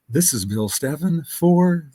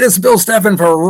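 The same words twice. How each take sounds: First: It is said in a soft, calm announcer voice. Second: It is said in a loud, energetic announcer voice. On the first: It introduces an easy-listening station. "the Mellow Station" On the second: It introduces a rock station. "Rock F M"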